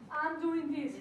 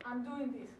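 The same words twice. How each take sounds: First: Louder, punchy demonstration of commitment; urging, emphatic model for the audience; emphatic declaration. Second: Said in the usual way. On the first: Shown as a demonstration. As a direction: declare it loudly to rally the room.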